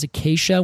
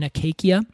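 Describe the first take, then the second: First: The second c is said as a soft sound. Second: The second c is said as a hard k. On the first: This is the modern pronunciation. "now we pronounce it as acacia" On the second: This is the ancient pronunciation. "because they did hard C's, would have been acacia"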